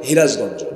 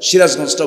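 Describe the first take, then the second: First: It is said Sirajganj-style with h. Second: It is said in standard Bengali with s.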